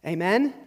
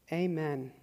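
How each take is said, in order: First: Rising "Amen?" tossed out to the room; calling for a response. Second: Said in the usual way. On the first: Real, not acted. Pastor prompts the congregation, rising question. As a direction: ask "Amen?" with a lift to draw them in.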